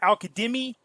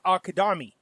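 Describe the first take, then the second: First: The vowel after 'Kad' sounds like 'ee'. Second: The vowel after 'Kad' sounds like 'ah'. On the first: The speaker calls it wrong. "It's not Al-Kadimi" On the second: The speaker calls it right. "it's Al-Kadami"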